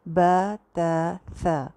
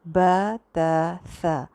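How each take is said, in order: First: The long a is softened and slightly leaning. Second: The long a is softened and slightly leaning.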